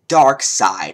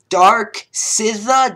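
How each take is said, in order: First: The second word is said as 'side'. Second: The second word is said as 'sizza'. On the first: The speaker calls it right. "Apparently he pronounces it Dark Side" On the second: The speaker calls it wrong. "I have no clue how to pronounce this guy's name"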